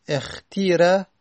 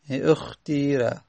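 First: اختیره with a clear i after خ; teacher giving the kasra form اختیره; kasra reading. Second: اختیره said slowly, its vowel rounded toward u; teacher demonstrating اختیره with ishmam. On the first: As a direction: say اختیره with a plain i vowel. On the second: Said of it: "با اشمام". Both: Shown as a demonstration.

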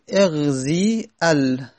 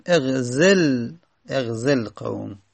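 First: "اغزی ال" slow, long zii, then separate al; both quiescents sounded. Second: "اغزل قوم" slowly joined as eghzel-qawm; short e in "اغزل", linked into qawm; ya left unpronounced. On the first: Teacher shows the clash, "اغزی ال" slow and unjoined. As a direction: hold "اغزی" before a full "ال". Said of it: "یا ساکنه". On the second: Teacher gives the spoken form, "اغزل قوم" slow and joined. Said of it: "یا تلفظ زده نمیشه". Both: Shown as a demonstration.

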